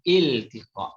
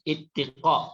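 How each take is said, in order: First: It is said with a clear l before the t. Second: It is said without an l before the t. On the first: The speaker calls it right. "Il. I-L. Il" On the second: The speaker calls it wrong. "Bukan ittiqa"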